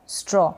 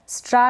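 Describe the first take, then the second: First: The vowel is a rounded 'aw' sound. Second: The vowel is an open 'ah' sound. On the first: The speaker calls it right. "इसको स्ट्रॉ" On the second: The speaker calls it wrong. "स्ट्रा नहीं read करेंगे"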